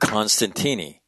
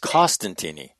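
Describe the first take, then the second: First: The first syllable has an n sound. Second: The first syllable has no n sound. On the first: The speaker calls it wrong. "the early N is in my head" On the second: The speaker calls it right. "His name is Costantini"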